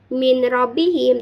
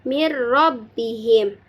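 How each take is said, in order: First: The n is clearly pronounced before the r. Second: The n merges into the r without nasal hum. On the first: The speaker calls it wrong. "tidak dibaca min Rabbihim" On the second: The speaker calls it right. "tetapi dimasukkan Mir Rabbihim"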